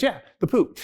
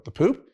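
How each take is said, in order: First: "poop" falling as a firm confirmation; higher-voiced reply, "poop" landing downward; confirming answer. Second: "poop" lifted in a rising question; questioning echo. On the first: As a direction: confirm it, pitch dropping on "poop". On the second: Retold or imitated. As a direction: check in disbelief, pitch rising on "poop". Acted question to his informant.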